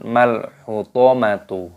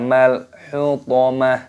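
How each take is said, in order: First: The word ends with a tu sound. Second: The word ends with an h sound. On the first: The speaker calls it wrong. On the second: The speaker calls it right. "yang benar"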